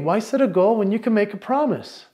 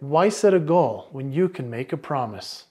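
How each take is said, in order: First: It sounds tentative, like asking a question. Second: It sounds firm, like a confident statement. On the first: The idea is offered as merely an okay idea. The speaker calls it wrong. "almost sounded like I was asking a question" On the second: The speaker truly believes the idea. The speaker calls it right. "I'm becoming more authoritative"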